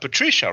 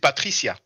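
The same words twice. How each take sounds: First: The name is said with an English pronunciation. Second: The name is said with a French pronunciation. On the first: "You pronounce that Patricia" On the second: "In French, we pronounce it Patricia"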